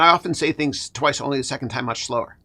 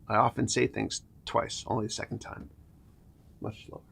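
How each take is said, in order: First: It is spoken at a normal, quicker pace. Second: It is spoken at a much slower pace.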